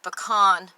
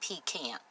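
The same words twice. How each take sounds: First: The word does not sound like 'pea can'. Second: The word sounds like 'pea' plus 'can'. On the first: This is the proper way to say it. The speaker calls it right. "But it's pronounced pecan pie" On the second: This is how someone else says it. The speaker calls it wrong. "I get a can of peas. I say, this is a pecan"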